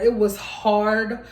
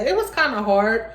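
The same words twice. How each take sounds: First: "It was hard" slow, weight on "hard"; slow, deliberate "It was hard", "hard" stressed; firm correction. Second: Said in the usual way. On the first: Shown as a demonstration. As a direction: drop the "kinda" and lean on "hard". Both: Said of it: "I'm not gonna say it was kinda hard".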